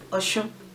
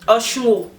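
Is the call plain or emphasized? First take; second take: plain; emphasized. First: It is said as a plain call. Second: It is said as an emphasized call.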